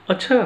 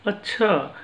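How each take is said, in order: First: "अच्छा" with the tune rising at the end; changed stress on अच्छा. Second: "अच्छा" starting higher and falling at the end; changed stress on अच्छा. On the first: Teacher shows one word changing meaning, "अच्छा" said with a rise. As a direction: lift the end of "अच्छा" like a question. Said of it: "अच्छा से ही हम जोर देकर". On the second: Teacher shows one word changing meaning, "अच्छा" said with a fall. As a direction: drop the tune through "अच्छा" like an acknowledgement. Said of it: "जोर देकर हम उसके अर्थ के मायने". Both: Shown as a demonstration.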